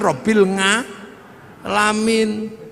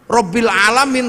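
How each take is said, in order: First: An ng sound is added before alamin. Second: Alamin begins directly with a vowel.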